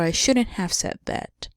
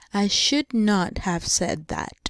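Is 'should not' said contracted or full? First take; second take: contracted; full. First: Should and not merge into one contracted word. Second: Should and not are said as two full words.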